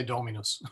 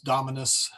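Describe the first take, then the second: First: Dominus with a long O, as DOH-mi-nus. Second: Dominus with a short, open first vowel. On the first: Teacher stating his own preference, long-O Dominus. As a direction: lengthen the first O of Dominus. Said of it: "easier to go with the O". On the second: Purist's version for the Latin class, short-vowel Dominus. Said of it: "a purist may want to stick with". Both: Shown as a demonstration.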